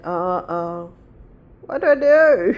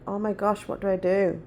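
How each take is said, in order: First: Mock alarm, voice jumping up; panicked mum. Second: Said in the usual way. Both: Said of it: "And I was like".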